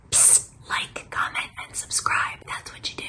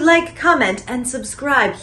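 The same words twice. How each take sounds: First: Whispered plug to the audience; psst, whisper it like a secret; conspiratorial whisper. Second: Said in the usual way. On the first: Pretend. Host nudging viewers to like and subscribe, whispered.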